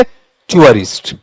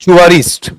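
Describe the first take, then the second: First: टूरिस्ट said slowly as 'choo-uh-rist'; correct pronunciation. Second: टूरिस्ट said the Hindi way, plain 'too-rist'; wrong pronunciation. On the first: Teacher modelling the correct टूरिस्ट for students, slow and careful. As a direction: glide टूरिस्ट into 'chyoo-rist'. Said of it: "इस तरीके से आता है". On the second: Teacher showing students the wrong way to say टूरिस्ट. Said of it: "टूरिस्ट नहीं होता है". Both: Shown as a demonstration.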